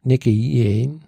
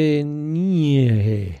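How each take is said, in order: First: Nekenie, quick and plain; spoken backwards. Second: Nekenie, drawn out very slowly; spoken backwards. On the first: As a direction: say Nekenie at normal speed. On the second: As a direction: say Nekenie slowly, savoring each syllable. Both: Shown as a demonstration. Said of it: "es ist rückwärts gesprochen".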